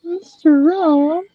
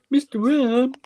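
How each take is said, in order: First: Slow, high questioning little voice; drawn-out high echo of the name; toy voice. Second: High, rising little voice; toy voice. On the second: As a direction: say the name like the toy would. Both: Shown as a demonstration. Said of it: "You can go".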